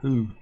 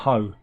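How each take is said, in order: First: The vowel sounds like 'oo' in who. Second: The vowel sounds like 'oh' in ho. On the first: The speaker calls it right. "Who not Ho" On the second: The speaker calls it wrong. "not Ho"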